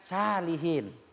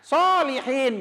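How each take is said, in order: First: It begins with a light, plain s sound. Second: It begins with a heavy, emphatic s sound. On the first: It means people with diarrhea. The speaker calls it wrong. "jangan salihin" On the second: It means righteous people. The speaker calls it right. "Makanya harus dibaca solihin"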